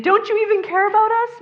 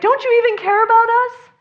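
First: High, loud, fast pleading; frantic plea. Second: High, loud frantic cry; panicked plea. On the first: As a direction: rush it out in panic. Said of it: "I don't think they were saying". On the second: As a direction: plead like panicking disciples. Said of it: "they're like". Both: Retold or imitated.

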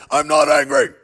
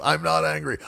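First: Loud, comically forced shout; mock angry yell. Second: Said in the usual way. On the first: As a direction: yell the denial for laughs.

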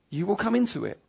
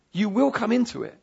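First: Said in the usual way. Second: "will" leaned on firmly in an insistent repeat; emphatic stress on will. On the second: Real, not acted. Preacher fighting lies in people's minds, emphatic stress on "will". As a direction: hit the word "will" with conviction. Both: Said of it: "why am I being so emphatic".

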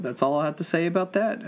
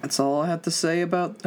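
First: Lightly voiced Forrest Gump line, barely changed; a hint of Forrest Gump, slightly higher; Forrest Gump quote. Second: Said in the usual way. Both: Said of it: "I just got a quote Forrest Gump".

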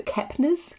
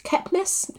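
First: "Kepnes" as KEP-nəz, ending in a z sound; unsure name pronunciation. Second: "Kepnes" as KEP-nəss, ending in a hissed s; questioning second pronunciation. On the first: Host guessing at a novelist's surname, "Kepnes" ending in z. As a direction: try "Kepnes" with a buzzed final z. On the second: Host querying a novelist's surname, "Kepnes" ending in s, questioning. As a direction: try "Kepnes" higher, with a soft s ending. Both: Shown as a demonstration. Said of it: "Who knows?".

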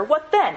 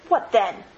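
First: Higher, louder, pressing what then; emphatic. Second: A touch of a retort, short and firm; mild retort. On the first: Scrooge pressing the girl, louder and higher. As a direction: push back hard on then. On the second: Scrooge retorting to the girl, mildly. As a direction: toss it back, lightly. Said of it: "he retorted". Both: Acted.

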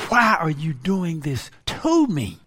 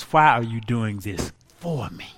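First: "to" leaned on in "doing this to me"; stress on to. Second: Lower, "for" brought out in "doing this for me"; stress on for. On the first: Preacher contrasting complaint with gratitude, stress on "to". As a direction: hit "to" as a complaint. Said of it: "It was, "Why are you doing this for me?". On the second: Preacher correcting the complaint into thanks, stress on "for". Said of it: "It was not, "Why are you doing this to me?". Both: Shown as a demonstration.

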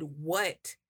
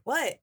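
First: Said in the usual way. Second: A sharp, clipped What? thrown back; curt what. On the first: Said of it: "the way I said "what". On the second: Retold or imitated. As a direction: snap What? at her, higher and louder. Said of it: "I was just like".

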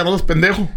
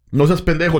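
First: Hostile insult. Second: Friendly insult. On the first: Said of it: "un cerote que no te tiene confianza". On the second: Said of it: "estamos en confianza". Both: Shown as a demonstration.

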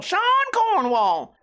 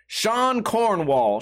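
First: Very high, drawn-out silly voice. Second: Name read very slowly; drawn-out reading. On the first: Pretend. Host playfully repeats a name from the article, high silly voice. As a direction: sing the name out in a playful falsetto. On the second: Real, not acted. Host reads a name from the article, slow and drawn out. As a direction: stretch out each part of the name.

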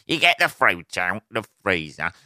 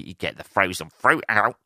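First: Lightly hammed-up comic setup; lame stand-up delivery. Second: Said in the usual way. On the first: Mocking own smoothie chat, lame stand-up delivery. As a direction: repeat it like a bad observational comic. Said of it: "lame stand-up fucking bit". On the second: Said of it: "This does sound like a la".

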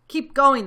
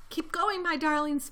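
First: Very loud, higher shouted order; farmer's shout. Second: High, mildly strained urging; panted urging. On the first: Bogus to Bunce and Bean at work, shouted. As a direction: bellow it across to the others. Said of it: "the fat Bogus shouted". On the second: Mister Fox to his darlings, panted. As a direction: urge them on as if a little winded. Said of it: "panted Mister Fox". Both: A narrator's reading.

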